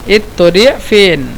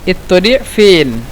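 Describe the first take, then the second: Both takes have the same delivery.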